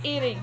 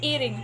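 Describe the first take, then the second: No difference in how they are said.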